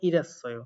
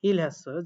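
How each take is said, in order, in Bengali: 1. h বাদ যায় এবং l হয়ে যায় r। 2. il-এর পরে h ধ্বনিটি উচ্চারিত হয়।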